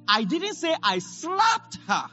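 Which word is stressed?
slapped. The stress falls on the word slapped. The action was something other than a slap. "Maybe I kicked her"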